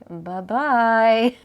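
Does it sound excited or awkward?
awkward. It sounds awkward and flat.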